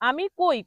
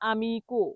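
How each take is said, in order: First: The word ends with a 'koi' sound. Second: The word ends with a 'ko' sound. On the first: The speaker calls it wrong. "এটা ভুল উচ্চারণ হবে" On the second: The speaker calls it right. "এটা সঠিক উচ্চারণ হবে আমিকো"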